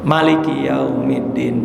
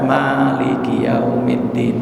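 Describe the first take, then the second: First: "Maliki" with a short clipped mim; short mim reading. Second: "Maliki" with a short mim, said slowly; short mim reading. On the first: Imam from Yemen reciting, slow and deliberate. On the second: Teacher demonstrating a variant reading, slow and drawn out. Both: Shown as a demonstration. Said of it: "Mimnya pendek aja".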